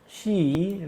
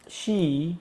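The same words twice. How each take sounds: The two takes are said the same way.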